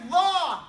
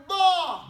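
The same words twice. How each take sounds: First: LAW begun with the tongue tip out past the teeth; drawn LAW, tongue between the teeth. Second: LAW begun with the tongue pulled back behind the teeth; drawn-out LAW from behind the bottom teeth. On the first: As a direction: stick the tongue out on the start of LAW. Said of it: "The tongue comes out". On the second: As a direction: pull the tongue in for a long, loud LAW. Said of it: "Now pull it back and say". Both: Shown as a demonstration.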